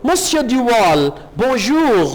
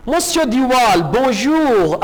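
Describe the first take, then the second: First: Slow, drawn-out mock copy of Duval's greeting; slow mimic of the French greeting; imitating Duval. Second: Said in the usual way. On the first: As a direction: echo the Frenchman as a playful copy. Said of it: "Mario भी उनकी नकल उतारता है".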